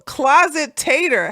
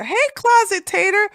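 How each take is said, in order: First: Said in the usual way. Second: Name called out higher; higher hey to a viewer; higher greeting. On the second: Shown as a demonstration. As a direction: greet them brightly by name.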